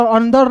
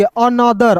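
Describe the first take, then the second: First: अंदर run together as two syllables, nasal n before d; अंदर like the Hindi word for inside; wrong reading of another. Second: अनदर in three syllables, a-na-dar; correct reading of another. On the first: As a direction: misread another as अंदर, losing the middle vowel. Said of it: "नहीं पढ़ेंगे". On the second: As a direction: keep the vowel after n in अनदर. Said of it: "अंदर नहीं पढ़ेंगे". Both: Shown as a demonstration.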